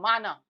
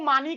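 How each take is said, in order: First: It is said with two plain 'a' vowels. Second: It is said ending in an 'ee' vowel. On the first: This is the original form of the word. The speaker calls it right. "वो माना कहलाएगा" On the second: This is the everyday Urdu form. The speaker calls it wrong. "बाज लोग इसको मानी कह देते हैं"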